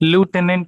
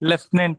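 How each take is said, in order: First: The first syllable sounds like 'loo'. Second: The first syllable sounds like 'lef'. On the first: "British ఇంగ్లీష్లో మాట్లాడతాం" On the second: "American ఇంగ్లీష్లో లెఫ్టినెంట్ అంటారు"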